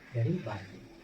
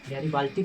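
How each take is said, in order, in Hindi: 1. अंतिम अक्षर में नरम 'd' बोला जाता है। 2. अंतिम अक्षर में 't' बोला जाता है।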